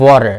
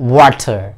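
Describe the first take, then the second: First: It is said in an American accent. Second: It is said in a British accent.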